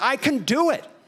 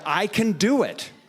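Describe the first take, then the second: First: It is said loudly with strong, excited energy. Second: It is said plainly, without extra energy. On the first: "they say it with lots of exclamation marks" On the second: "they don't just say it that way"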